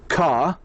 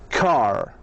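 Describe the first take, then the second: First: British accent, with no R sound at the end. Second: American accent, with the R sound pronounced. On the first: "in the British you say car" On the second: "and the American car"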